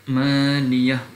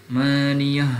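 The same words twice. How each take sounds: The two takes are said the same way.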